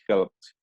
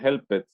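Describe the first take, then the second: First: The ending is a short "t" sound. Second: The ending is an extra "ed" syllable. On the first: The speaker calls it right. "it would be helped" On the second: The speaker calls it wrong. "esto no sería helped"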